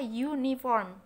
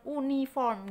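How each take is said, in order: First: The word starts with a 'yoo' sound. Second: The word starts with a plain 'oo' sound. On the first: The speaker calls it right. "pendengaran kita pasti dengar kata uniform" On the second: The speaker calls it wrong. "bukan uniform gitu ya"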